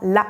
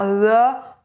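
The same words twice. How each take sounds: First: The syllable is articulated quickly and crisply. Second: The syllable is articulated slowly and loosely. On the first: The speaker calls it right. "le plus rapidement possible" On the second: The speaker calls it wrong. "Attention à ne pas faire"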